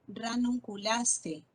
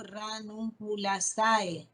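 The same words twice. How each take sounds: First: Ranunculase with the ending read as a single e, slowly; correct reading. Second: Ranunculasae with a and e sounded apart; wrong reading. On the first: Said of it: "no digo ranunculasae". (pronunciación correcta: Ranunculase terminado en e) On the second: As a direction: pronounce ranunculasae letter by letter. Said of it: "no digo". (pronunciación incorrecta: ranunculasae con a-e separadas) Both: Shown as a demonstration.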